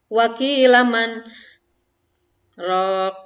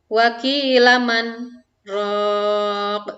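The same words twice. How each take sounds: First: A breath is taken at the pause after 'man'. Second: A short stop after 'man' with no breath. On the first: The speaker calls it wrong. "Contoh yang salah seperti ini. ... Jadi napas dulu dilanjutkan" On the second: The speaker calls it right. "Jadi yang tepatnya adalah"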